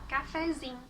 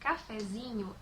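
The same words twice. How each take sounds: First: The word ends with a short 'im' sound. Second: The word ends with the full 'inho' sound. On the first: "é comum a gente falar" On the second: "palavras como cafezinho"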